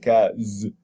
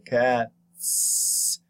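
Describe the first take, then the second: First: The name ends with a voiced z sound. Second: The name ends with a voiceless s sound. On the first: The speaker calls it wrong. "You don't say cat z" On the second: The speaker calls it right. "you say cat s"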